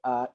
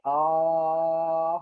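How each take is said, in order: First: The vowel is said short and clipped. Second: The vowel is drawn out long. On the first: It is the sound of the hamzah letter. "Hamzah kita tahu bunyi dia a i u" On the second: It is the sound of the alif letter. "Bunyi dia panjang ya"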